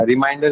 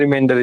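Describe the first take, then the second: First: Reminder said as "ri-MINE-der"; "mind" pronunciation. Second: Remainder said as "ri-MEN-der"; "men" pronunciation. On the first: Teacher checks a student understood, "ai" vowel in Reminder. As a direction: stretch no further than "mind" in Reminder, an "ai" vowel. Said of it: "Reminder is different". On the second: Teacher checks a student understood, "e" vowel in remainder. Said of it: "remainder is different". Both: Shown as a demonstration.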